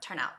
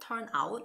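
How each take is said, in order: First: The n links smoothly into out. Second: The two words are said separately, not linked. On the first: The speaker calls it right. "turn out has a little linking sound there" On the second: The speaker calls it wrong. "It's not turn out"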